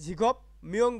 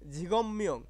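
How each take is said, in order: First: The first word ends with a p sound. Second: The first word ends with an m sound. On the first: The speaker calls it wrong. "ঝিগপ মিয়ং বলা যাচ্ছে না" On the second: The speaker calls it right. "কি বলতে হবে"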